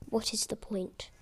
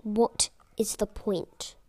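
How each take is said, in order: First: Unvoiced, much softer echo; whispered repeat. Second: Drawn-out, weary question; slow despair. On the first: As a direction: whisper it to yourself, defeated. Repeating the retort under her breath. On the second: Retold or imitated. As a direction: stretch it out, hopeless. Despairing retort to the teacher.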